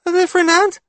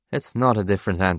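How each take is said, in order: First: Put-on very high, loud child voice; piping child question; questioning little boy. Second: Said in the usual way. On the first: A narrator's reading. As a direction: ask it like a doubtful small kid. Child guesses at the creature.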